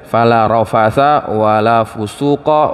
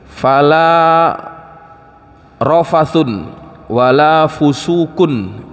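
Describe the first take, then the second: First: The nouns end with an 'a' sound. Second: The nouns end with an 'un' sound. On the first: "membacanya dengan menasabkan semuanya" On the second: "birraf'i wat tanwini"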